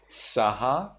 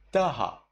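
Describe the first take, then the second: First: Saha starting with a plain S; standard S reading. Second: Taha starting with a th; tongue to teeth for taha, said tha-ha; taha, th in place of S; Burmese th reading. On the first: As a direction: hiss the s of saha, rising. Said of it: "instead of saha". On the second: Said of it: "S sound into tha". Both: Shown as a demonstration.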